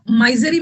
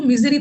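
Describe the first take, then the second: First: माइजरी with a long "my" first syllable; mispronounced MISERY. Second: मिजरी with a short "mi" first syllable; correct MISERY pronunciation. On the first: Teacher warns students off this reading, misread माइजरी as "my-zuh-ree". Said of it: "इसको माइजरी मत पढ़ना". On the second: Teacher shows students the reading, मिजरी pronounced "miz-ree". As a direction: say मिजरी, first vowel as in "miss". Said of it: "इसको मिजरी पढ़ना". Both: Shown as a demonstration.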